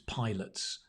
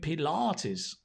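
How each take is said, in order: First: The word sounds just like 'pilots'. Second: The word is said with its usual pronunciation. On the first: The speaker calls it wrong. "For ages, I thought it was pilots" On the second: The speaker calls it right. "No, Keith, I'm doing Pilates"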